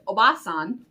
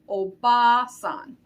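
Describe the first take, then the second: First: The vowel after b is short. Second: The vowel after b is held long. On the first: It means aunt. "not to be confused with oba-san, which means aunt" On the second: It means grandmother. "So we hold that a sound"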